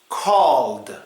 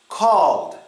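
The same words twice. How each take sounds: Both takes have the same delivery.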